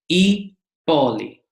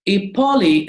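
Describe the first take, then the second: First: Ipoli drawn out slowly, stress on the I; slow model word. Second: Ipoli said higher and louder, with a falling end; bright emphatic Ipoli. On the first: Teacher modelling Ipoli slowly for her students. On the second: Teacher repeating Ipoli emphatically to the class. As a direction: call out Ipoli with energy. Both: Shown as a demonstration. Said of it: "Greek lesson pronunciation demo".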